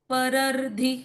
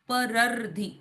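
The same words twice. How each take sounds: No difference in how they are said.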